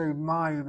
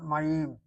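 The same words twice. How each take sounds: First: "Mayim" said MA-yim; "Mayim" with the accent up front; first-syllable stress. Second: "Mayim" said ma-YIM; "Mayim" with the accent shifted to the end; last-syllable stress. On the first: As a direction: hit the MA of "Mayim", light ending. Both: Shown as a demonstration. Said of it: "Why not hit the last syllable?".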